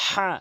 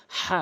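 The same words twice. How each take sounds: First: হা breathed strongly from the middle of the throat; হা as a harsh throat h; হা with a rasping mid-throat breath; correct Arabic ha. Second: হা as a light plain h, the common mistake; হা said like Bengali h; wrong pronunciation of ha. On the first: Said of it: "বলতে হবে". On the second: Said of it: "অধিকাংশ লোক হা বলে". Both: Shown as a demonstration.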